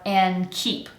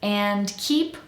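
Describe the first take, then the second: First: The D at the end of 'and' is dropped. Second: The D at the end of 'and' is pronounced. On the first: "without the D" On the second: "with the D"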